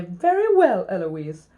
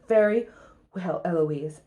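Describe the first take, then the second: First: Cheeky copycat concession; mimicking the tutor. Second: Lightly voiced stern tutor; tutor giving up. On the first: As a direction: parrot it back with a swoop up. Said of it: "I stand up and say". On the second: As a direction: concede stiffly, voice sinking. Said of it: "stands up and says".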